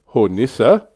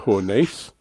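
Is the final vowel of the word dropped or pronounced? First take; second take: pronounced; dropped. First: The final vowel is clearly pronounced. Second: The final vowel is dropped entirely. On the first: The speaker calls it right. "The E is pronounced in German" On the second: The speaker calls it wrong. "I've been dropping it like the French"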